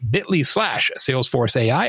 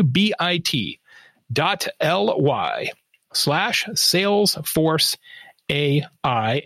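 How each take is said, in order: First: It is said at normal speed. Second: It is said slowly, letter by letter.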